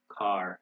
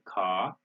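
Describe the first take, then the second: First: The final R sound is clearly pronounced. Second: The R is dropped and the vowel lengthened. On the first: "the R is pronounced in American English" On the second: "In British English, they don't pronounce it. They just prolong the ah sound"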